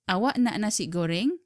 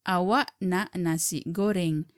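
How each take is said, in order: First: The voice rises at the end. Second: The voice falls at the end. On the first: It asks whether you want fried rice. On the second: It states that you want fried rice.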